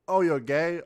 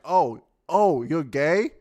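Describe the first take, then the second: First: It is said in a casual, offhand way. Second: It is said in an overly gushing way.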